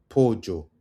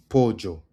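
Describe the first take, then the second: No difference in how they are said.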